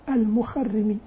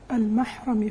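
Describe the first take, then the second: First: The r is doubled and followed by an i vowel. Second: The r is single and followed by an a vowel. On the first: "بتشديد الراء مع الكسر" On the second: "فتح الراء مع التخفيف دون تشديد"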